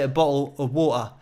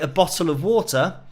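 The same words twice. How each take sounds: First: The t sounds are dropped, Cockney accent. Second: The t sounds are clearly pronounced, standard accent. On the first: "EastEnders would say a bottle of water" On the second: "I would say a bottle of water. So I would pronounce the T's"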